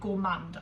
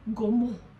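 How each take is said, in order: First: The word is said with an English pronunciation. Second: The word is said with a French pronunciation. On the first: "you're just gonna have to put up with me saying gourmand" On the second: "Some people say gourmand. I'm not French"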